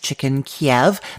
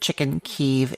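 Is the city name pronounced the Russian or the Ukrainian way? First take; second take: Russian; Ukrainian. First: The city name has its Russian pronunciation. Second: The city name has its Ukrainian pronunciation. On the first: "That's the Russian pronunciation" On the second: "is the Ukrainian pronunciation"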